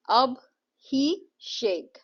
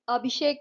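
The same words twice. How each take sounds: First: अब, ही, शेक as three slow beats with pauses; syllable by syllable. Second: Said in the usual way. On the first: Shown as a demonstration. Teacher counting three syllables in a name, slowly separated. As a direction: sound out अब, ही, शेक one separate syllable at a time. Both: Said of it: "अभिषेक में three syllables हैं".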